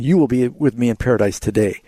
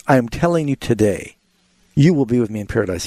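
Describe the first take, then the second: First: "today" tucked onto the end of "in paradise" with no pause before it. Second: "today" closes the first phrase, then a pause before "you will be with me in paradise"; pause after today. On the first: Host showing the caller the misreading, "today" joined to paradise. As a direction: run straight through and let "today" finish the sentence. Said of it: "He's not saying". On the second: Host reading the verse to a radio caller, pausing after "today". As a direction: land on "today" and stop, then start the promise. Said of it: "Now, the emphasis is".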